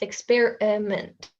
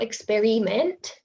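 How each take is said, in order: First: The unstressed vowel is reduced to a schwa. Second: The unstressed vowel is said as a full vowel. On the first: The speaker calls it right. "we have also the schwa here" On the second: The speaker calls it wrong. "so it's not experiment"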